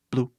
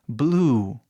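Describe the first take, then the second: First: BLUE with a clipped, brief U; short vowel. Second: BLUE with the U held long; stretched vowel. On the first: Teacher shows the confusing version, BLUE cut short. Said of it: "Se eu falar". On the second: Teacher demonstrates stretching, BLUE with long U. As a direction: draw out the end of BLUE. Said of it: "esticando quase o som". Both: Shown as a demonstration.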